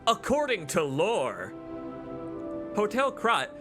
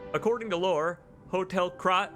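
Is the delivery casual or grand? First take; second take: grand; casual. First: It is read in a grand, weighty tone. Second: It is read in a plain, casual tone. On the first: The speaker calls it right. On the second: The speaker calls it wrong.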